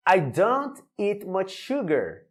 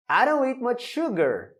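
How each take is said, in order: First: "I don't eat much sugar" read slowly, each word clear; slow model sentence. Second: Said in the usual way. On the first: Shown as a demonstration. Teacher modelling the sentence slowly for students. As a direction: spell it out slowly. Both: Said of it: "Mais um exemplo".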